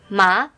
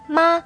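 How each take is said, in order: First: The pitch rises from lower to higher. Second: The pitch stays level and flat throughout. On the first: "the second tone on it,which is a rising tone" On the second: "Here 妈 is a flat tone, which we call the first tone"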